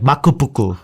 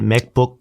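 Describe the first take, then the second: First: It is said with Japanese pronunciation. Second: It is said with Korean pronunciation. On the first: "my Japanese friend will be like makupuku" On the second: "Korea changes it, changes it up a little bit"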